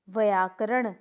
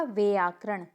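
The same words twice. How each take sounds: First: व्याकरण with an inserted short a, "vayaakaran"; incorrect pronunciation. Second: व्याकरण starting "vyaa", close to "veaakaran"; correct pronunciation. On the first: Teacher showing a mistake, व्याकरण starting "va". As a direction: open व्याकरण with "va-yaa". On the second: Teacher answering, व्याकरण starting "vyaa". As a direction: glide from v into "yaa" in व्याकरण. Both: Shown as a demonstration. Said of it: "तो क्या होगा?".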